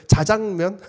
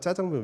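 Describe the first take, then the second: First: It is said carefully, with a plain first consonant. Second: It is said casually, with a tense first consonant.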